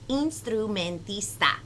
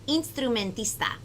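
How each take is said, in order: First: The word is said a little faster. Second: The word is said very fast.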